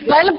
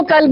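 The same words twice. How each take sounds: First: "قلب" opening on qaf, not kaf; قاف والا تلفظ. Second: "قلب" mispronounced with kaf instead of qaf; کاف والا تلفظ. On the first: ("قلب" کو حلق سے قاف کے ساتھ) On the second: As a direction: say "قلب" as kalb, with a plain k. ("قلب" کو غلطی سے کاف کے ساتھ، کلب) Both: Shown as a demonstration. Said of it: "قلب کو قلب نہ کر دیجیے گا".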